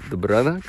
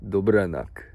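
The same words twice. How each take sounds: First: Dobranoc with a questioning rise at the end; questioning Polish-accented dobranoc. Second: Dobranoc said with a Polish accent, falling at the end; put-on Polish accent on dobranoc. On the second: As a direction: say dobranoc the way a Pole would. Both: Shown as a demonstration. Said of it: "I don't know why I say it in that accent".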